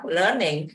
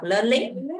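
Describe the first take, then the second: First: "learning" with LEARN strong and "ning" falling; intoned "learning", weaker low second syllable; stress on first syllable. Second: "learning" with "ning" rising instead of falling; wrongly stressed both syllables. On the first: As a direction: hit "learn", drop the pitch on "ning". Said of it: "đọc learning nghe nó hay hơn". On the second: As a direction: stress both halves of "learning", lifting the end. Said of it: "mình không lẽ mình đọc learning". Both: Shown as a demonstration.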